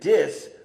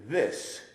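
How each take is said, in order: First: It begins with a d sound. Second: It begins with a th sound. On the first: "conditioned not to use E R T H sounds is going to say dis" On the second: "rather than saying this"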